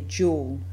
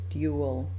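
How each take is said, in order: First: The word begins with a 'j' sound. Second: The word begins with a 'dy' sound. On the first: "New Zealanders and many English speakers from other countries also will say dual" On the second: "instead of dual"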